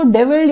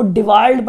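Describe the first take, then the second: First: "डेविड" said with "de" first and a short second vowel; "डेविड" as de-vild, short in the second syllable; preferred name pronunciation. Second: "डिवाल्ड" said with a long open aa in the second syllable; "डिवाल्ड" as some people read it, di-vaald; alternative name pronunciation. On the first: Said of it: "जैसे मर्जी पढ़िए". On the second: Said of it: "कुछ लोग इनको डिवाल्ड पढ़ते हैं". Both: Shown as a demonstration.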